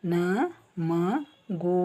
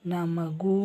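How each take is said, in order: First: Slow demo. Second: Said in the usual way. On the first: Shown as a demonstration. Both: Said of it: "this O".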